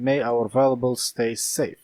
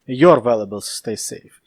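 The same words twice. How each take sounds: First: Said in the usual way. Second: "Your" hit louder to correct it; stress on YOUR. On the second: Real, not acted. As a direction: lean on the word "Your". Corrects misread "our" to "your.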